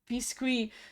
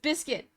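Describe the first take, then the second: First: The word is pronounced with French sounds. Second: The word is pronounced with English sounds. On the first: The speaker calls it wrong. "I'm pronouncing it the French way" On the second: The speaker calls it right. "So it's biscuit"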